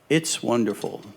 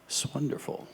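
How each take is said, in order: First: It begins with a full it's before wonderful. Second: It begins with a bare s joined to wonderful. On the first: The speaker calls it wrong. "I said" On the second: The speaker calls it right. "it's actually pronounced swonderful"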